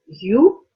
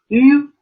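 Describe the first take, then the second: First: It sounds like the English word you. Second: It is a rounded front vowel without glide. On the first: The speaker calls it wrong. "This does not sound like U" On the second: The speaker calls it right. "a unique sound"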